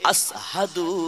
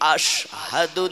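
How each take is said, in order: First: The middle consonant is an 's' sound. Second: The middle consonant is a 'sh' sound. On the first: The speaker calls it wrong. "আসহাদু হইয়া যায়" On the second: The speaker calls it right. "বড় শিন উচ্চারণ করতে গেলে"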